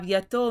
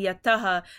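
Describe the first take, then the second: First: The word ends with an 'o' sound. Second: The word ends with an 'aha' sound. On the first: The form changes before the following word. "the visarg turned into an o" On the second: This is the original form of the word. "it was originally yataha"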